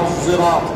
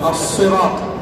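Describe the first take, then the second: First: It begins with an emphatic s tinged with z. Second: It begins with an emphatic, heavy s sound. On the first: "بالصاد بإشمامها زايا" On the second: "القراءة الأولى بالصاد"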